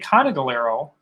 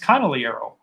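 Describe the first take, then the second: First: The name is said the Wisconsin way. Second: The name is said the Italian way, G silent.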